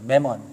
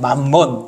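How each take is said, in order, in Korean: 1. 영어 억양으로 발음됐어요. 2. 한국식 억양으로 발음됐어요. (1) "영어에서 재물을 뭐라 그러냐면 매먼이라 그래요" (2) "콩글리시 발음은 맘몬 이렇게 발음할 수도 있어요"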